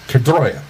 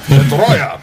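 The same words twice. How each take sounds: First: It is said in his normal accent. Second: It is said in a Russian accent.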